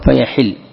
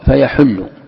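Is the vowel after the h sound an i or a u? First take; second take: i; u. First: The h sound is followed by an i vowel. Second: The h sound is followed by a u vowel. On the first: The anger becomes due and binding upon you. "كسرتها تقول فيحل" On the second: The anger descends and comes down upon you. "ضممتها تقول فيحل"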